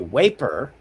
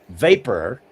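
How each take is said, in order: First: The word begins with a w sound. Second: The word begins with a v sound. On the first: "okay, that's W" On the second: "that's what it actually is"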